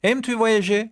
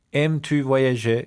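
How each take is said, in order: First: Said in the usual way. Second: Slow repeat. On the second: Shown as a demonstration. Teacher asks pupils if they like travelling, slowly. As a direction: say it slowly for learners.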